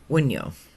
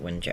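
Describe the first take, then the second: First: The middle consonant is a 'y' sound. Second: The middle consonant is a 'j' sound. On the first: Other people say it this way. "some pronounce it Wunyo" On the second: The speaker says it this way. "I pronounce it Wunjo"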